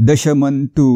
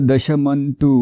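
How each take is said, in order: No difference in how they are said.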